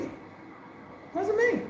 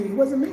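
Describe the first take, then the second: First: Soft, high and very drawn-out; hushed slow denial. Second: Said in the usual way. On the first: Retold or imitated. Repeating to herself that it was not her, hushed and slow. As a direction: let it float away slowly, almost to herself.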